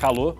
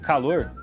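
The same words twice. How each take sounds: First: The final R sound is dropped. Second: The final R sound is pronounced. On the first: "Tirar o R do final de algumas palavras, ... que vira calor" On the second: "como em calor"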